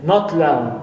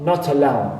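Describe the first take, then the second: First: The initial schwa of the second word is dropped. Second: The initial schwa of the second word is pronounced. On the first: The speaker calls it right. "we drop the shba at the beginning of second word and we pronounce it" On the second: The speaker calls it wrong. "and not"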